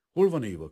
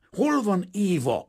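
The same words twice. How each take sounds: First: Stiff, curt question, raised and louder. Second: Slow, high, loud roar. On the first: Painter asking the father after his fiancée, stiffly. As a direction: ask it stiffly, with a firm push. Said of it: "kérdezte mereven". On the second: Painter exploding at his fiancée's father, roaring. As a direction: bellow it, drawing out each word. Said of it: "ordított föl Kazimír". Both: A narrator's reading.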